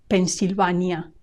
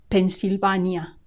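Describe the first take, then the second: Both takes have the same delivery.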